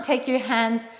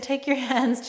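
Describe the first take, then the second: First: Light, accidental British accent; a touch of put-on British English. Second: Said in the usual way. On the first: Real, not acted. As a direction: slip briefly into a British accent. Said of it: "did that in a British accent". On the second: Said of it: "don't know why I did that".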